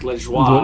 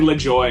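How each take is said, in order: First: The name is said with a French pronunciation. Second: The name is said with an English pronunciation. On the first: This is how it would be said in French. "In French, it'd be like Le Joie" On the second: This is how the fans probably said it. "They were probably Le Joy"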